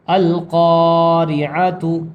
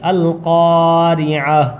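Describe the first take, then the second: First: The final ta is pronounced fully as 'tu'. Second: The final ta is silent, ending in an 'h'.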